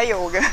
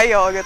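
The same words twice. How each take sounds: First: Yoga with a closed O; course-taught yoga, closed O. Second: Yoga the Brazilian way, O open. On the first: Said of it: "aprende no curso pra falar yoga". (iôga com "ô" fechado) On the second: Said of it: "mas não é errado". (ióga com "ó" aberto) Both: Shown as a demonstration.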